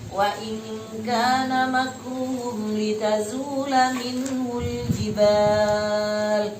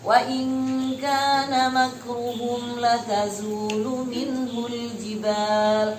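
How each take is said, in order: First: The verb begins with li and ends in a. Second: The verb begins with la and ends in u. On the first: The plotting means trying to kill, capture or expel. "bacaan yang seperti di mushaf kalian" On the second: The plotting means disbelief. "bacaan yang kedua"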